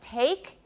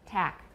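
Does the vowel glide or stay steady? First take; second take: glide; steady. First: The vowel glides into a second sound. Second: The vowel stays a single steady sound. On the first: The speaker calls it right. "instead of saying take" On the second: The speaker calls it wrong. "in Taiwan you often hear tack"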